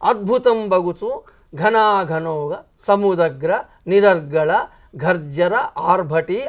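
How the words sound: The words are broken up by pauses. The verse loses its force and becomes weak. The speaker calls it wrong. "ఒకవేళ అట్లా కాకుండా ... అది పేలం అయిపోతుంది పద్యం"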